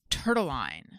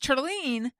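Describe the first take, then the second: First: The name ends with a 'line' sound. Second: The name ends with a 'ling' sound. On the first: The speaker calls it wrong. "like Caroline" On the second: The speaker calls it right. "Unfortunately, it's Turtline"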